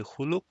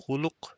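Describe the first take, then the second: First: خلق as one syllable, "khulq"; no vowel after the lam in خلق; sukoon on the lam. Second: خلق as two syllables, "khu-luq"; two-vowel form. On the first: Teacher offers learners the other option, khulq with silent-vowel lam. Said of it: "with the sukoon here on the lam". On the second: Teacher offers learners the first option, khuluq with two vowels. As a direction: put a short u after the lam in خلق. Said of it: "you could say خلق or خلق". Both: Shown as a demonstration.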